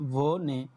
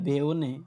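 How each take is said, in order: First: The first vowel is a single o sound. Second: The first vowel glides from e to o. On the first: The speaker calls it right. "এখানে বলতে হবে ভোনে" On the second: The speaker calls it wrong. "বে নো"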